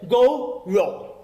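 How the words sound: It is said with a British accent.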